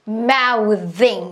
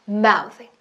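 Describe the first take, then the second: First: The final syllable is said with strong force. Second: The final syllable is said lightly and quickly. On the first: The speaker calls it wrong. "너무 많이 세게 하시면 안 돼요. mouthing 이러시면 안 돼요" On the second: The speaker calls it right. "힘 빼고 조금은 풀어지게 그리고 빠르게"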